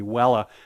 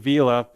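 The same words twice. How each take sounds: First: It is said with the old Latin pronunciation. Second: It is said with the ordinary modern pronunciation.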